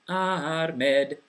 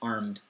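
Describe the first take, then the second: First: It is said with a Scots pronunciation. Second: It is said with a standard English pronunciation.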